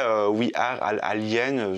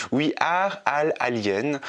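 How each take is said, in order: First: Said in the usual way. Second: Slow English accent. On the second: Real, not acted. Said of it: "désolé pour mon accent anglais".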